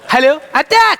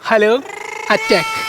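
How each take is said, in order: First: The phrase is said loudly, nearly shouted. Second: The phrase is said at a normal, quiet volume.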